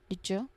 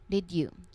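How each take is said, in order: First: The d and y blend into a j sound. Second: The d and y sounds are said separately. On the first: "the D sound from did and the Y sound from you combine and change to make a J sound" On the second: "This comes from the full phrase did you"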